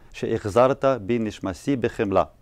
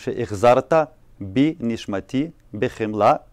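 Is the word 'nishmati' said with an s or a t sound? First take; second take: s sound; t sound. First: The word nishmati is said with an s sound. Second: The word nishmati is said with a t sound.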